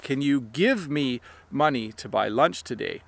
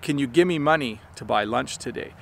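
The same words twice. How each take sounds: First: Give me is said fully as two words. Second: Give me is squeezed together into one quick word. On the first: "sometimes he will say" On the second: "what he actually says is"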